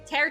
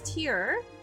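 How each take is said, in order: First: The word is said like 'tear', rhyming with air. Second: The word is said like 'tier', rhyming with ear. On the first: The speaker calls it wrong. "she said tear. She kept saying tear" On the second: The speaker calls it right. "it's tier"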